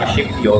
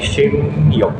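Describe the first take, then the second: First: The first syllable ends with a p sound. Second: The first syllable ends with an m sound. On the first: The speaker calls it wrong. "hindi Shipyo" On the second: The speaker calls it right. "kung hindi Shimyo"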